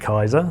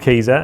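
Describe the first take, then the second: First: The first vowel sounds like 'eye'. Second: The first vowel sounds like 'ee'. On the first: The speaker calls it wrong. "the first stumbling block I get with everyone is pronouncing it Kaiser" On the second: The speaker calls it right. "it is called Keeza"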